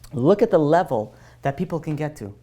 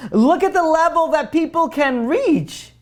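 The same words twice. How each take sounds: First: Said in the usual way. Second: Higher and slow, leaning on "reach" with a falling tune; awed emphasis. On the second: Real, not acted. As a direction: marvel at how far people can get. Repeated phrase, raised with awe.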